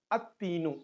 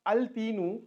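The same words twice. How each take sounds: First: "at-tinu" with no l, t doubled; lam dropped. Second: "al-tinu" with the l sounded before t; lam pronounced. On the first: Teacher gives learners the correct form, "at-tinu" with lam silent. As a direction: drop the l and hold the t in "at-tinu". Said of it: "we used to pronounce it as". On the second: Teacher gives learners the form to avoid, "al-tinu" with l sounded. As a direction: keep a clear l in "al-tinu". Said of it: "Instead of al-tinu". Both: Shown as a demonstration.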